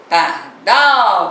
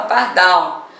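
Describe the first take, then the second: First: Par-DAAAL, last syllable held long; lingering on DAL. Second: Said in the usual way. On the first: Shown as a demonstration. Teacher showing which syllable lasts longer, DAL drawn out in Pardal. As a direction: call Pardal slowly, stretching DAL. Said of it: "demorou mais um pouquinho no dal".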